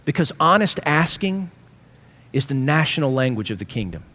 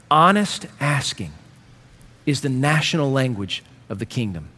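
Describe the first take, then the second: First: Said in the usual way. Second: "Honest asking" drawn out slow, weight on "Honest"; slower emphatic repeat. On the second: Shown as a demonstration. Pastor pressing his point home, slow emphatic. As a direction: lean into "Honest" slowly. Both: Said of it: "repeated line".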